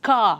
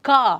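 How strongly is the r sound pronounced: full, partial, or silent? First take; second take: silent; silent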